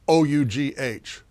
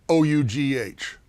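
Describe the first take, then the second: The two takes are said the same way.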